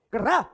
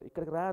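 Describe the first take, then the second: First: It is said sharply and seriously. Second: It is said softly and gently. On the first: "అలా చెప్పాడు ప్రవక్త... అంత సీరియస్గా చెప్పాడు" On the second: "ఇంత సం- నెమ్మదిగా చెప్పలేదండి"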